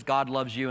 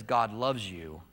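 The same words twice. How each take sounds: First: Said in the usual way. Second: Slow, weighted reading of the cross. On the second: Acted. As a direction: read it out slowly, heavy with grief.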